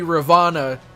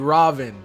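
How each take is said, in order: First: The name ends with a final vowel sound. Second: The name ends without a final vowel sound. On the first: The speaker calls it wrong. "it wouldn't be Ravana" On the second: The speaker calls it right. "you don't pronounce the A"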